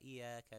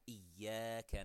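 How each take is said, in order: First: The y sound is single and light. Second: The y sound is doubled and held. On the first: The speaker calls it wrong. "the mushaddad make it mukhaffaf" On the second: The speaker calls it right. "instead of saying"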